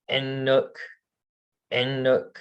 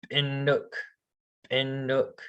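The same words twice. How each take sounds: First: Said in the usual way. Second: "Inuk" begun with a creaky glottal catch; creaky glottal start. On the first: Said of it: "if you said it without the". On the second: Shown as a demonstration. Teacher showing the word with a glottal start, creaky. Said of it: "So this would be like".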